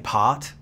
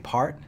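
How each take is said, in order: First: The R sound is left out. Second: The R sound is clearly pronounced. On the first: "we say part, we don't pronounce the R" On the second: "whereas you guys say part"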